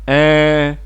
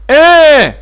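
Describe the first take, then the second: First: It is brief, oral and without force. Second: It is drawn out, nasal and forceful. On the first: It means yes. "en prolongeant brièvement le son, sans force et en utilisant la sortie d'air par la bouche" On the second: It means no.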